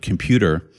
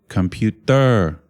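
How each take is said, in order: First: It is said with ordinary English rhythm and stress. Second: It is said with Thai rhythm and stress. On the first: "the English word computer" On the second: "Thai people say something like computer"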